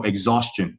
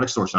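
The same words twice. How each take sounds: First: Exhaustion said with the gz sound, ig-ZAWS-chun; careful exhaustion, the gz and sch sounds clear; correct word. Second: Extortion said with the ks sound, ik-STOR-shun; wrong word. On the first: Correcting the chat, careful exhaustion pronounced ig-ZAWS-chun. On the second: Setting the wrong word against the right, extortion said ik-STOR-shun. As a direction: extortion with a crisp ks and tor. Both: Shown as a demonstration. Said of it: "exhaustion, not extortion".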